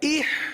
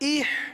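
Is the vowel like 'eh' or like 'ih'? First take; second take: ih; ih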